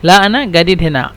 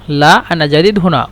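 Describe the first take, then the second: First: جديد said with a hard g, gadeed, Egyptian style; the جيم in جديد as a hard g, like in go; jim as hard g. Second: The جيم in جديد as j, like in jam; jim as j. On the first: Teacher models Egyptian جديد with a hard g for students. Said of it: "أو جيم يعني غين". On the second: Teacher models جديد with a j sound for students. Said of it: "نحن نستخدم جيم يعني جيم". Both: Shown as a demonstration.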